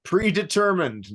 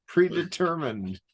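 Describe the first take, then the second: First: "Predetermined" high, stretched, falling; emphatic correction. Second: "Predetermined" slow, drawn out, falling; slow insistence. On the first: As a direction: stress "Predetermined" like correcting someone. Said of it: "correcting repeated phrase". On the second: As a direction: stretch "Predetermined" slowly to insist. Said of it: "repeated slowly". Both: Shown as a demonstration.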